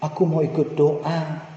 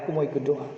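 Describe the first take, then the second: First: Put-on slow, drawn-out childish plea; pleading child. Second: Put-on quieter, meeker childish plea; softer pleading child. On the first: Father imitating his son pleading again to come pray, slow. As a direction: ask to come along like a begging toddler. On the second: Father repeating his son's plea, softer and more pitiful. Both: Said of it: "Dia memelas lagi".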